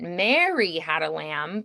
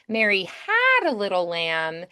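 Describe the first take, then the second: First: The stress is on Mary. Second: The stress is on had.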